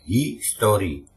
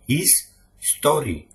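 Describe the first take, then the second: First: It is said smoothly as one word. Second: It is split into two separate words.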